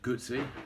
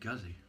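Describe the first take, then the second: First: The middle consonant sounds like 'ts', as in pizza. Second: The middle consonant sounds like a plain 'z'. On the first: This is the original Italian pronunciation. The speaker calls it right. "pronounced Guzzi, as in pizza" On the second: This is how people in England say it. The speaker calls it wrong. "in England, people say Guzzi"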